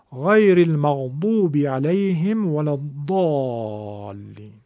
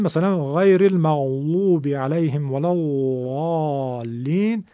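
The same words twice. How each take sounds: First: Very slow, المغضوب and الضالین with heavy dal; Egyptian zad. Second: Slow recitation, ض as a heavy dal; Egyptian zad. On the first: Teacher reciting Fatiha in the Egyptian style. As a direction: recite slowly, ض as a thick emphatic d. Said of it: "زاد مصری بخوام بگم اینطور خواهد شد". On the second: Teacher reciting Fatiha with Egyptian zad. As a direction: recite غیر المغضوب slowly with a thick d. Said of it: "به صورت مصری". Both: Shown as a demonstration.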